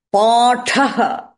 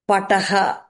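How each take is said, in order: First: "Pataha" drawn out as paa-tha-ha; long first a and breathy puff on the t in "Pataha"; long vowel, aspirated th. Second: "pataha" with short first a, plain t; no puff of air on the t in "pataha"; unaspirated t. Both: Shown as a demonstration.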